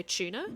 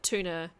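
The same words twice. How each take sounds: First: "tuna" said as CHOO-na; "tuna" starting like "chew"; non-American pronunciation. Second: "tuna" said as TOO-na; "tuna" starting like "too"; American pronunciation. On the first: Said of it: "Like, I should say tuna". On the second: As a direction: say "tuna" with a clean t and oo. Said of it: "is the way Americans say it". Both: Shown as a demonstration.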